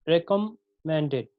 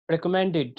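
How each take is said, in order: First: recommended slowly, syllable by syllable, mend stressed; slow stress demo. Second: recommended with रिक and म light, mend stressed; stress on third syllable. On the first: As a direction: draw out recommended to show its stress. (Recommended धीरे, मेंड पर ज़ोर) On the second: (recommended में मेंड पर ज़ोर) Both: Shown as a demonstration. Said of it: "टू unstressed और one stressed".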